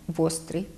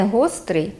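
First: Вострий with v at the start; dialect в for г. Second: Said in the usual way. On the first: Shown as a demonstration. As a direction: Podillia вострий, v in place of h. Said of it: "переходить у звук «в»". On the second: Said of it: "Не гострий".

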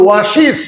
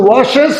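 First: ওয়াশিস ending in "-shiz"; new "-iz" ending. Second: ওয়াশেস ending in "-shes", rising; old "-es" ending. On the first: Teacher showing the corrected way, ওয়াশিস with "-shiz". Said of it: "এখন বলবো". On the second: Teacher recalling the earlier way, ওয়াশেস with "-shes". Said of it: "আগে বলেছি". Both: Shown as a demonstration.

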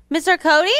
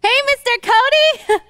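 First: Quick, rising, unsure call; asking the empty stage where he is; puzzled question. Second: Bright call across the stage. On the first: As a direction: wonder where he went. Looking for him, no answer. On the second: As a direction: call his name out from offstage, a bit higher. Calling him from offstage. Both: Acted.

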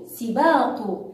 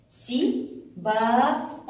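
First: Said in the usual way. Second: Slow, drawn-out سباق with a rising end; stretched syllables. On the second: Shown as a demonstration.

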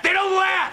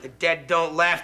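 First: Spooked outburst. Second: Said in the usual way. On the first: Acted. Alone on the phone, spooked by the laughter on the line, jumps up in pitch. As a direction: blurt it out, rattled by the laughing. Repeats the line, then louder.

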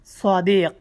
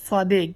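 First: সাদিক said "swaadiiq", with heavy sad and final qaf; correct qaf ending. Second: সাদিক said "swaadiig", with final hard g for qaf; regional gaf ending. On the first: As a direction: end সাদিক on a back-of-throat q. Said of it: "এটা হচ্ছে শুদ্ধ শব্দ হচ্ছে সাদিক". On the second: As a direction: voice the last sound of সাদিক as g. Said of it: "আঞ্চলিক আরবিতে তারা কাফকে গাফ উচ্চারণ করে". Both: Shown as a demonstration.

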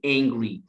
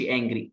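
First: "Angry" starting with a long "ay"; correct long a. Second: "angry" with a flat short a; wrong pronunciation. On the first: Teacher correcting learners, long-a "Angry". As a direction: say "Angry" as "ayn-gree". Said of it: "بنطقها لونج اي". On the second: Teacher showing the mistake, short-a "angry". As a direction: say "angry" with the a of "cat". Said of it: "ما اقولش angry". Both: Shown as a demonstration.

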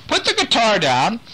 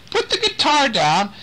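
First: High call, weight on "the", tune rising; calling again. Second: High call with "Put" rising up. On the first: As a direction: repeat the call, leaning on "the". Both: Acted. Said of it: "Nick is calling to him".

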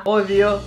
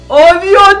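First: Low, softer murmured Oh, Dios; quiet oh God. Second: Louder, higher Oh, Dios with stress on Dios; alarmed oh God. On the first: Vlogger watching stage about to fall, hushed dread. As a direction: drop your voice on Oh, Dios. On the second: Vlogger as stage collapses, alarmed outburst. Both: Real, not acted. Same words said twice.

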